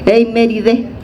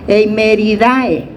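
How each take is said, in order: First: The spelled 'ae' is said as 'e'. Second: The spelled 'ae' is said as 'a-e'. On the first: The speaker calls it right. "Eimeridae es E, ¿verdad? O sea que así se pronuncia" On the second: The speaker calls it wrong. "yo hubiera dicho aquí Eimeridae"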